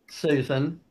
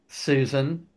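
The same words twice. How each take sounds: Both takes have the same delivery.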